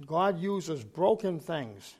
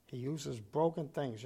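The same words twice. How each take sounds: First: Broken stressed, slow and a bit louder; slow emphatic broken; slow stressed line. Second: Said in the usual way. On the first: Shown as a demonstration. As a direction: lean on broken slowly.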